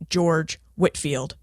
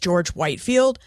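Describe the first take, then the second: First: The surname is pronounced differently from its spelling. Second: The surname is pronounced as it is spelled. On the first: The speaker calls it right. "his name is pronounced George Whitefield, but spelled Whitefield" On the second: The speaker calls it wrong. "I pronounce George Whitefield's name as George Whitefield, and that's because it is spelled George Whitefield"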